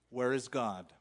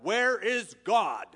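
First: It is asked in a calm, plain voice. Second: It is yelled loudly in an angry voice.

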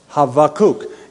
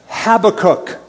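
First: The name is said the Hebrew way. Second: The name is said the common English way.

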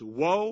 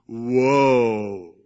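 First: The words are said quietly and flatly. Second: The words are said loudly and dramatically. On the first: The speaker calls it wrong. "Now I'm sure he didn't say it like that" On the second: The speaker calls it right. "He probably said"

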